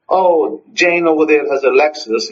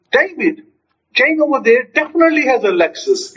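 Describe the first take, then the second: First: Said in the usual way. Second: High-pitched, emphatic announcement; excited. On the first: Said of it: "just make a mundane statement". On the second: Acted. Telling David about Jane's car, excited. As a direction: make it thrilling news. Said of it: "see how the statement changes".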